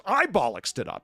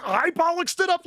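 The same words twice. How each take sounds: First: Indignant retort. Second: Mock outraged, high and loud; peak indignation. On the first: Retold or imitated. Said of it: "as they get increasingly indignant". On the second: The actress firing it back, hammed-up indignant Irish outrage. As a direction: push the indignation to the top. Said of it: "increasingly indignant".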